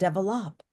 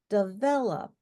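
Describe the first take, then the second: First: The stress is on the first syllable. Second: The stress is on the second syllable. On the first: The speaker calls it wrong. "I don't understand you. And he said it again" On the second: The speaker calls it right. "You have to have a pitch rise and then like on the second syllable"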